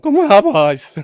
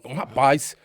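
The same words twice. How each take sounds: First: The voice cracks and wavers between pitches. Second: The voice is steady and does not crack.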